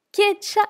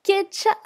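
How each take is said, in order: First: "Kecha" repeated high and clear, with a ch sound; Tibetan word repeated. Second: "kecha" said high and clear as a model; Tibetan word. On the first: Teacher repeats the word for students, clear model. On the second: Teacher introduces the word to students, clear model pronunciation. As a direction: model "kecha" for learners to repeat. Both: Shown as a demonstration. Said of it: "Deuxième mot".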